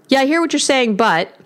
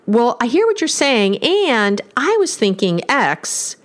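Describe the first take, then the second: First: "but" dropping flat and shut; closing-down "but". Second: Slow, easy, open "and" take; open and inviting. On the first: Therapist demonstrating the "but" phrasing, closed and dismissive. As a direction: let the voice sink on "but", heading for a rebuttal. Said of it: "even the tone of my voice changes". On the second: Therapist demonstrating the "and" phrasing to couples, inviting and open. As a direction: draw the listener in gently. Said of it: "just listen to that". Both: Shown as a demonstration.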